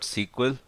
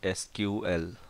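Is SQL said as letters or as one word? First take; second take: one word; letters. First: It is said as one blended word. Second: Each letter is said separately. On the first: The speaker calls it wrong. "we should not pronounce this as SQL. That is wrong way of pronouncing it" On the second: The speaker calls it right. "or SQL separately"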